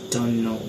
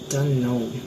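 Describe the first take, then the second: First: A sound is dropped between the words. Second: Every sound is pronounced in full. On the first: "Our elision we pronounce is" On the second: "The second word is uh"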